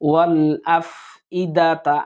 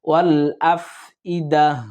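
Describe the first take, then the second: First: The word ends with a full final 'ta' syllable. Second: The word stops short without the final syllable. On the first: The speaker calls it wrong. "আর বলতে হবে না" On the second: The speaker calls it right. "থামার সময় আমরা"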